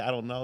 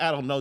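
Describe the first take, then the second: First: Said in the usual way. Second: "I don't know" hit louder and higher, final; flat-out shut the caller down with "I don't know"; a clerk who won't be bothered, stressed hard; impactful brush-off. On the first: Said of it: "When they say". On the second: Shown as a demonstration. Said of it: "just sounds so impactful".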